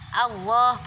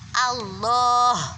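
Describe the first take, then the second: First: The middle consonant sounds like a w. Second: The middle consonant is a clear, full l. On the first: The speaker calls it wrong. "Terus habis A adalah L, bukan W. Allah bukan gitu" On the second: The speaker calls it right. "Tapi Allah, Allah, gitu ya"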